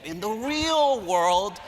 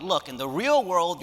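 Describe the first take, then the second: First: Slow, higher mock-lecturing "In the real world"; mocking professor. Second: "Look, in the real world" said slowly but near plain; understated stern lecture; earnest retelling. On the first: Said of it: "They love it when professors say to them". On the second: Retold or imitated. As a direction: state it like a firm professor. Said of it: "When I pointed out that".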